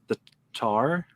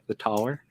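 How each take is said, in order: First: Tower is said with a Northern Irish vowel. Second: Tower is said with a standard vowel. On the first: The speaker calls it wrong. "not the Northern Ireland way" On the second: The speaker calls it right. "I should pronounce the word properly"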